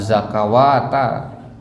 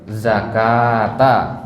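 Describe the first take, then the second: First: A w sound is read inside the word. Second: No w sound is read inside the word. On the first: The speaker calls it wrong. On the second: The speaker calls it right.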